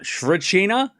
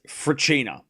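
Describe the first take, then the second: First: The name begins with an S sound. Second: The name begins without an S sound. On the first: The speaker calls it wrong. "I'm pretty sure it's not Shrechina. The S is silent" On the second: The speaker calls it right. "I'm pretty sure it's Fracchina"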